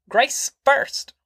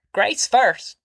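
First: Very high, shrill repeated demand; shrill clamour. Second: Higher insistent demand; clamouring. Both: A narrator's reading. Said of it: "Grandma clamoured".

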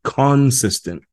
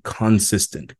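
First: "consistent" drawn out slowly, each syllable held; slow emphasis. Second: Said in the usual way. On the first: Shown as a demonstration. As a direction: stretch "consistent" out slowly to drive it home. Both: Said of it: "as [name] would say".

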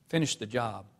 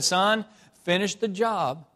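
First: Said in the usual way. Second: Son, finish the job said slow, high and loud; firm slow command. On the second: Retold or imitated. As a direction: lay down the law, word by word. Father firmly repeats his order.

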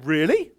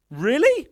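First: Low, questioning "Really?"; doubtful really. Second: Higher, louder "Really?" with a sharp rise; incredulous really. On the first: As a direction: ask "Really?" low with a rising tune, unsure. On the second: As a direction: push "Really?" up high in disbelief. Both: Retold or imitated. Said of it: "We're like".

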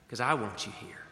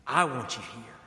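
First: Said in the usual way. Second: I want you here said louder and firmer; Jesus pressing the point home; emphatic repeat. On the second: Retold or imitated. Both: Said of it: "But Jesus is saying".

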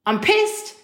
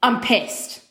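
First: Real annoyed exclamation, voice shooting up; exasperated outburst. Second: Said in the usual way. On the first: Real, not acted. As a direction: pitch jumps much higher on pissed, rising. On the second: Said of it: "I've gotta be honest with you".

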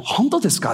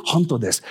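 First: "Honto desu ka" pitched up as a query; question tune on "Honto desu ka". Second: "Honto desu" settled and falling; statement tune on "Honto desu". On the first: Preacher asking is it true, questioning tune on "Honto desu ka". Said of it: "Is it true?". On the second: Preacher confirming it is true, falling statement tune on "Honto desu". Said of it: "It is true". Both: Shown as a demonstration.

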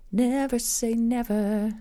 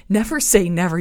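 First: Slow, sung-out "never say never"; catchphrase. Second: Laughing repeat. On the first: Host quoting a song line to listeners, drawn out. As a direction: draw out "never say never" like a pop lyric. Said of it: "you said never". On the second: Host laughing at her own pop reference, louder. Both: Shown as a demonstration.

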